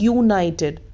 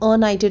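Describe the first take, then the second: First: The word begins with a 'y' consonant sound. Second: The word begins with a plain vowel sound. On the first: The speaker calls it right. "हम क्या बोल रहे हैं, यूनाइटेड ... consonant की sound आ रही है" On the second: The speaker calls it wrong. "हम अनाइटेड नहीं बोल रहे हैं ना"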